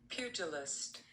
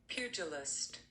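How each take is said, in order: The two takes are said the same way.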